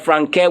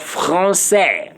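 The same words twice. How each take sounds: First: Français mispronounced with a hard k; français wrongly with k. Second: Français correctly, ç as an s sound; français with soft c. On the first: Teacher warns learners against ordinary C, hard-k mispronunciation of français. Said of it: "meaning you are saying francaire". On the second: Teacher corrects the word for learners, soft s in français. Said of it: "we are talking about français". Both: Shown as a demonstration.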